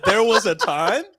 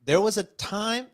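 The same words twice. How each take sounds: First: Re-reading "There was a time" higher and louder, puzzled. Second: Said in the usual way. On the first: Retold or imitated. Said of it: "I looked at that and said". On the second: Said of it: "I can't read it all".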